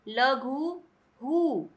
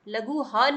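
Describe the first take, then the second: First: The final h sound is followed by u. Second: The final h sound is followed by a. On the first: The speaker calls it right. "लघु हु ऐसे पढ़ेंगे" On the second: The speaker calls it wrong. "लघु ह नहीं पढ़ेंगे"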